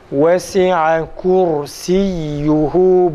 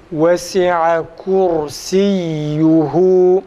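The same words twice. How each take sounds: The two takes are said the same way.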